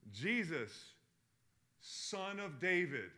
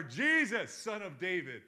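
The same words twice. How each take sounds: First: Drawn-out, raised call for help; imitating a blind man's cry; retold scream. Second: Full-voiced, high shouted plea; imitating a desperate cry at the top of the voice; louder scream. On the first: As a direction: call out slowly, a held-back scream. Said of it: "He screams". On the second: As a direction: shout it out over those hushing you. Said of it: "Screams louder".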